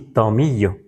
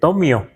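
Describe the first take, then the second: First: The middle is said with a 'y' sound, 'miyo'. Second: The middle is said as a plain 'mio'. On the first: Native speakers say it this way. The speaker calls it right. "No se pronuncia tomio, por lo menos tomillo. Así" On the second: A Spanish-trained reader reads the old spelling literally. The speaker calls it wrong. "puede leer tomio"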